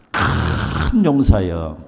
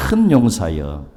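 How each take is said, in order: First: Low, very slow, gravelly "큰 용사여"; throaty, phlegmy call. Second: Low, throaty call to a mighty warrior; mock booming call. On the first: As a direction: drag it out deep with phlegm in the throat. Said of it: "가래가 좀 끓어야 됩니다. 이럴 때는". (가래 끓는 낮고 아주 느린 목소리) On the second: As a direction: clear the throat and call him grandly. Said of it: "가래가 좀 끓어야 됩니다". (가래 끓는 듯한 낮은 목소리) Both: Shown as a demonstration.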